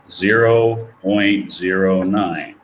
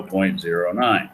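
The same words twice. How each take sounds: First: "zero point zero nine" said slowly, every word spaced; slow dictation. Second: Said in the usual way. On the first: Shown as a demonstration. Teacher dictates the decimal to the class, slowly. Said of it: "Nine divided by one hundred is equal to". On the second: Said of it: "ten dollars times one plus zero".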